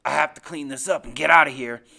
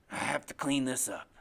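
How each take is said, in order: First: Low, loud, forceful growing threat; menacing resolve. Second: Low, menacing murmur to himself; talking to himself. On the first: Acted. Father resolves to get rid of witnesses, loud low menace. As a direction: say it hard, as a decision. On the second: A narrator's reading. Father plans to himself after his son's accusation, low self-absorbed menace. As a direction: think aloud darkly, deep in the voice. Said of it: "like he's talking to himself".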